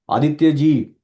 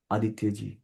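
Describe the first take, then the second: First: Calling Aditya loudly across the room; louder call. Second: Soft voice. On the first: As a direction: call the name out loud. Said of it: "बड़ी आवाज में बोलूँ". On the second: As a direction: say the name quietly and low. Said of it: "छोटी आवाज में बोलूँ". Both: Shown as a demonstration.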